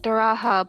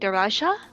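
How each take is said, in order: First: The J sounds like a soft H. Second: The J is pronounced as a J. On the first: The speaker calls it wrong. "I want to call it Daraha, I'm used to the silent J" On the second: The speaker calls it right. "but it's probably Daraja"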